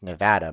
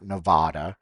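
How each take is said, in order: First: The middle vowel is not an 'ah' sound. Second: The middle vowel is an 'ah' sound. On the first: The speaker calls it right. "It's Nevada, by the way" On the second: The speaker calls it wrong. "It's not Nevada"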